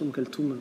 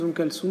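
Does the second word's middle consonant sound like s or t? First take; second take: t; s. First: The second word has a t sound in the middle. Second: The second word has an s sound in the middle. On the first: This is how it should be said. The speaker calls it right. "la plupart disent ou devraient dire... c'est un T en fait" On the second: This is how many people say it. The speaker calls it wrong. "il y a des gens qui disent"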